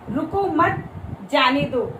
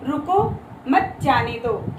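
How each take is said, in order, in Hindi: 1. विराम 'mat' के ठीक बाद है। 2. विराम 'ruko' के ठीक बाद है। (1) "यानी कि उसको रोको मत, जाने दो।" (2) "रुको के बाद मैंने क्या लगाया है? अल्प विराम।"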